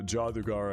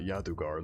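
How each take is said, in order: First: The name begins with a J sound. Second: The name begins with a Y sound. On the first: The speaker calls it right. "you are supposed to pronounce it J" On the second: The speaker calls it wrong. "It's not Yadugar like I've been trying to call it"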